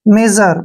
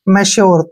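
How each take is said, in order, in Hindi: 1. मध्य व्यंजन एक स्वरयुक्त 'zh' ध्वनि है। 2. मध्य व्यंजन 'shy' ध्वनि है। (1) "तो इस प्रकार से ये बन गया मेजर" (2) "आप इसको पढ़ते हैं मैश्योर"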